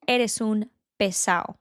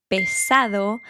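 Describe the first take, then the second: First: "Eres un pesado" with the d dropped, said "pesao"; slangy "Eres un pesado", drop the d. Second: "pesado" with a clear d; full d. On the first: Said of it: "we would say". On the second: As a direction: say "pesado" fully. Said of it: "don't say the D from the end of a word". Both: Shown as a demonstration.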